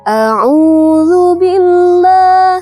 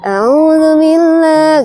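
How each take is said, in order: First: Each sound is articulated crisply and distinctly. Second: The sounds are slurred and lazily articulated. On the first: The speaker calls it right. "sesuai dengan pengucapan makhrajul hurufnya bakal enak didengar gitu. Jelas kan?" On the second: The speaker calls it wrong. "Kayak orang malas gitu misalnya. A'udzubillah nggak jelas"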